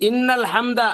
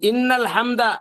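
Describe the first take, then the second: First: The n sound is held long and doubled. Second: The same.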